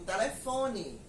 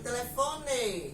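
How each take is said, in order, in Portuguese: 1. A vogal final soa como I. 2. A vogal final soa como E. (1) "aqui em Pernambuco, eu digo telefone. Então, eu estou pronunciando o E com som de I" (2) "lá no Paraná, eles dizem realmente... eles realmente pronunciam a palavra com som de E"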